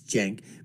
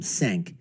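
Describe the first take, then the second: First: The name begins with a J sound. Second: The name begins with an S sound. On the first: "I know how the name is pronounced, it's Jenk" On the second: "but you know I call him Senk"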